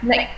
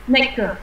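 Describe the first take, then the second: First: The word ends cleanly on the k sound. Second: An extra vowel follows the final k sound. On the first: The speaker calls it right. "Nó ca nhá, không phải là cờ nhá" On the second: The speaker calls it wrong. "không phải snacker nhá"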